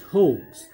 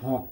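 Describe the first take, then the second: First: The word is pronounced the English way. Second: The word is pronounced as spelled, Indonesian style. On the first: The speaker calls it right. "you pronounce hoax" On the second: The speaker calls it wrong. "not hawk. ... it is completely wrong because it is English word"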